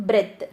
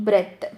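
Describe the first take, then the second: Both takes have the same delivery.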